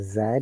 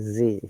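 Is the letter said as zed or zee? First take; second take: zed; zee. First: The letter is said as zed. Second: The letter is said as zee. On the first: "they don't say Z" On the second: "in American English ... they say Z"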